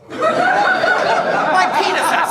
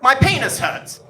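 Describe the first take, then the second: First: High, loud, outraged disbelief; incredulous repeat. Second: Understated, matter-of-fact announcement; deadpan. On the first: Acted. Son quoting dad's greeting to audience, incredulous outburst. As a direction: repeat it as if unable to believe it. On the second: Retold or imitated. Dad's first words to his visiting son, deadpan. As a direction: state it bluntly with no greeting. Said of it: "looks at me dead in the eyes and just says".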